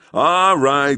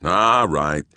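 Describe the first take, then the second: First: High, louder call to the crowd; policeman's call. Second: Said in the usual way. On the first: Acted. Policeman calling out to a gawking crowd. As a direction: raise it to cut through the crowd.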